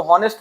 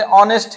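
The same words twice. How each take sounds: First: हॉनेस्ट with the h sounded; mispronunciation. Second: ऑनेस्ट with a silent h; correct pronunciation. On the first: Teacher showing learners' wrong reading of honest, mispronunciation. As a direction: put an audible h at the start of हॉनेस्ट. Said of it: "आप इसको हॉनेस्ट पढ़ते हैं तब भी गलत". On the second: Teacher showing how honest is really said, correct pronunciation. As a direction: begin ऑनेस्ट on the open ऑ vowel. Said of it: "सही pronunciation". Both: Shown as a demonstration.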